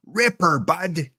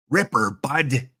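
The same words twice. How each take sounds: First: Higher, put-on Canadian accent; mock Canadian lilt. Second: Put-on Southern US twang, drawn out; slow it into a Southern accent; lightly played Southern drawl. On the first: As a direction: lift it into a playful Canadian accent. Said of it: "That's more Canadian". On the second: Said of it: "Sound like I'm from the southern states".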